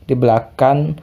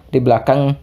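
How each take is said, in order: No difference in how they are said.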